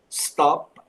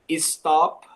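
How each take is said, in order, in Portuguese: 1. A palavra começa direto com o som de s. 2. Um som de e extra vem antes do s. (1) "em vez de apenas stop" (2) "costuma colocar um E antes"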